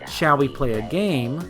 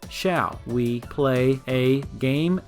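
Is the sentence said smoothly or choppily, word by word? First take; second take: smoothly; choppily. First: It is said with a natural, flowing rhythm. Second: It is said flat, as separately recorded words.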